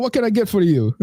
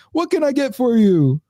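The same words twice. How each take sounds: First: Put-on failed Caribbean accent. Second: High, drawn-out mock Caribbean voice; terrible Caribbean accent. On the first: Deli worker greets a customer, botched Caribbean accent. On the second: Deli worker greets a customer, terrible Caribbean accent. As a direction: stretch it out in a badly faked Caribbean accent. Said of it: "do the fucking Caribbean accent".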